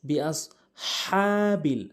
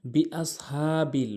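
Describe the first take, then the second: First: বিআসহাবিল with the ha from the throat and one alif drawn long; correct pronunciation. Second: বিআসহাবিল said short, without the long alif; wrong pronunciation. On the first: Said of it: "সঠিক উচ্চারণ হচ্ছে". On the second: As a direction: clip the vowel in বিআসহাবিল. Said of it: "ভুল উচ্চারণ". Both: Shown as a demonstration.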